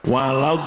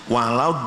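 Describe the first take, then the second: No difference in how they are said.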